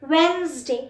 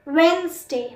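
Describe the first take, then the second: Both takes have the same delivery.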